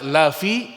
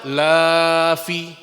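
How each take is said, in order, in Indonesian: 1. Vokal pertama itu pendek. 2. Vokal pertama itu panjang. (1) "sungguh benar-benar" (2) "menjadi artinya tidak atau jangan"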